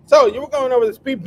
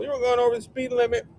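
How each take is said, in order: First: Higher, louder mock police officer; hammed-up traffic cop. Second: Higher, fast, mock police officer; quick hammed-up cop line; mock cop, quicker. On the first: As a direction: play a goofy cop pulling someone over. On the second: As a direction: rattle it off like a goofy cop. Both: Acting cop at traffic stop.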